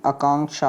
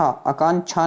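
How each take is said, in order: First: आकांक्षा said "aa-kaank-sha", with k-sh; correct pronunciation. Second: आकांक्षा said "aa-kaan-chha", chh ending; wrong pronunciation. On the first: Teacher corrects students, आकांक्षा as "aa-kaank-sha". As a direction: sound the k-sh in आकांक्षा. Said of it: "कक्षा वाला छः बनेगा". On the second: Teacher shows the error, आकांक्षा as "aa-kaan-chha". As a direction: swap the ksh of आकांक्षा for chh. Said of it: "आकांक्षा नहीं होता मेरे भाई". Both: Shown as a demonstration.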